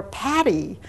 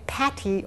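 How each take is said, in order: First: "Patty" with a flapped T, like paddy; soft-T Patty. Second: "Patty" with a crisp, aspirated T. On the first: Lecturer contrasting two names, "Patty" said like paddy. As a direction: soften the T in "Patty" to a quick D. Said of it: "Patty or Patty". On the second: Lecturer contrasting two names, "Patty" with crisp T. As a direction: say "Patty" as Pat-tee, the T fully sounded. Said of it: "could never tell where people were saying". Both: Shown as a demonstration.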